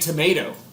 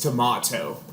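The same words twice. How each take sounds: First: The word is said in an American accent. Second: The word is said in a British accent. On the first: This is how the parents say it. "she corrects us for saying tomato" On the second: This is how the child says it. "she says tomato and potato because she watches Peppa Pig"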